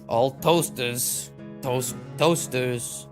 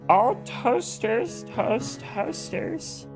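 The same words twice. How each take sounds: First: It is said in a plain natural voice. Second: It is said in a put-on character voice.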